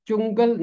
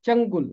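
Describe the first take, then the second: First: چنگل said as chungal, with u in the first syllable; wrong pronunciation. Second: چنگل said as changul, short a then u; correct pronunciation. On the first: Teacher giving the common wrong reading of چنگل, chungal. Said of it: "چنگل اس کا غلط تلفظ ہے". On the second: Teacher giving students the right reading of چنگل, changul. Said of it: "درست تلفظ ہے چنگل". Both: Shown as a demonstration.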